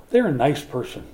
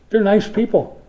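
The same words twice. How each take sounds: First: Said in the usual way. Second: "They're nice people" said higher and louder, gushing; mock sweet praise. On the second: Pastor mocking shallow praise of nice people, gushing. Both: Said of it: "Doesn't that sound like a good funeral sermon?".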